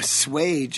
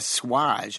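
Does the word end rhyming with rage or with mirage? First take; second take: rage; mirage. First: The ending rhymes with rage, a hard 'aige' sound. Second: The ending rhymes with mirage, a soft 'ahzh' sound. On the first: The speaker calls it right. "It rhymes with rage" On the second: The speaker calls it wrong. "as if it rhymes with mirage"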